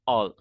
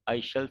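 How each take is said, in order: First: It is said as one contracted word. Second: It is said as two full words.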